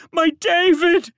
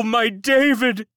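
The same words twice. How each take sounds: First: Slow, even higher loud wail, falling on David. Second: Slow, high loud wail on David. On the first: Servant repeats the child's name in a falling wail. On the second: Servant wails the lost child's name, slow and loud. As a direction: draw out my David in grief. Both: A narrator's reading. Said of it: "wailed a fourth".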